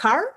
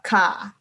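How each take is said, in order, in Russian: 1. Конечный звук r отчётливо произносится. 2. Конечный звук r полностью опускается. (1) "американцы скажут слово «машина» — «car»" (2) "австралийцы и большинство британских акцентов и новозеландских скажут «car». То есть без какого-то намека на R"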